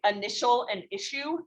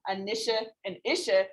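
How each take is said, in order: First: The words are pronounced normally and do not rhyme. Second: The pronunciation is changed so the words rhyme. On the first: "those don't actually rhyme" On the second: "you can say it, ... and then they rhyme"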